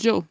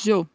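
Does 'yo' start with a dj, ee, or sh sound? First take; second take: dj; dj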